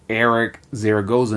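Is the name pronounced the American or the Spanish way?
American. The name is pronounced with American English sounds. This is how people in the US say the name. The speaker calls it wrong. "in the U S"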